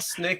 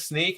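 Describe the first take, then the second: First: It has the short i vowel of Snickers. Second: It has the long ee vowel of seek. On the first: The speaker calls it wrong. "It's not snick as in Snickers" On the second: The speaker calls it right. "it is sneak"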